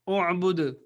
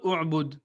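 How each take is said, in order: First: The final consonant ends with a slight echoing bounce. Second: The final consonant stops flatly without any bounce. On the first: The speaker calls it right. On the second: The speaker calls it wrong.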